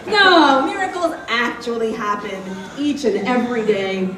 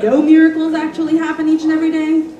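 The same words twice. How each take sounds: First: There is a break after no. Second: It runs on without a pause after no.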